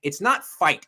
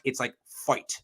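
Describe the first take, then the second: First: Said in the usual way. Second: Midwest accent. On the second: Shown as a demonstration. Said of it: "That is very Midwest".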